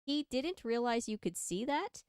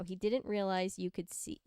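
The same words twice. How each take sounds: First: "that" rising at the end; questioning tune. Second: Said in the usual way. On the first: A narrator's reading. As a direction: lift "that" into a question. Re-reads the line as a question.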